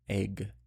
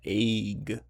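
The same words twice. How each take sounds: First: The vowel is a short 'eh' sound. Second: The vowel is a longer 'ay' sound. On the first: The speaker calls it right. "that's an E" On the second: The speaker calls it wrong.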